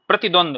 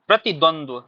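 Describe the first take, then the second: First: The word ends after 'dvand' without a final 'dva'. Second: The word ends with a second 'dva' sound. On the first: The speaker calls it wrong. "तो यहां थोड़ा सा ध्यान रखना है।" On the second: The speaker calls it right. "क्या पढ़ते हैं इसको सही से? प्रतिद्वंद्व।"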